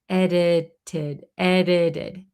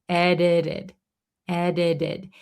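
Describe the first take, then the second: No difference in how they are said.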